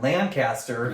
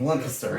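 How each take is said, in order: First: Every syllable is said fully, as spelled. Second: The syllables are slurred together in a relaxed way. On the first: The speaker calls it wrong. "even though it is spelled this way and phonetically would sound this way, it's not Lancaster" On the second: The speaker calls it right. "You gotta say it like lazily"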